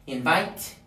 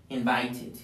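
First: Said in the usual way. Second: "invited" as in-vite-id; "invited" with a clear t and full "id"; added -ed syllable. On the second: Shown as a demonstration. Teacher showing the extra syllable, "invited" said in-vite-id. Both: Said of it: "tenemos que agregar una sílaba adicional".

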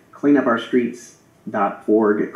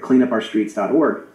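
First: "clean up our streets dot org" spelled out slowly, each word set apart; slow stressed website. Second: Said in the usual way. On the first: Shown as a demonstration. Urging viewers to visit the campaign website, slow and deliberate. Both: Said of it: "Go to that website".

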